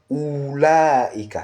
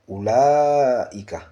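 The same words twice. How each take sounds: First: The first vowel is drawn out long. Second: The first vowel is kept short. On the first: The speaker calls it wrong. "On ne dit pas oulaika" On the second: The speaker calls it right. "On prononce le ou sans allongement"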